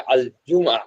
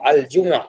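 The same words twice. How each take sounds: First: The consonant is a hard g sound. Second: The consonant is a soft j sound. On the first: "थोड़ा सा हार्ड वाला जी" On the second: "हमने फुसा में कहा"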